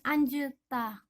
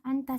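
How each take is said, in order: First: A j sound is said before the t. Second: No j sound is said before the t. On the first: The speaker calls it wrong. "Bukan anjeta, bukan" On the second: The speaker calls it right. "Cukup dibaca anta saja"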